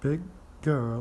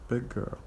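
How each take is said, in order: First: The G sound is pronounced twice, separately. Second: The two G sounds merge into one.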